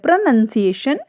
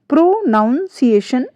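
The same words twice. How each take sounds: First: The second syllable sounds like 'nun'. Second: The second syllable sounds like 'noun'. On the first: The speaker calls it right. "Right है" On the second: The speaker calls it wrong. "Wrong है"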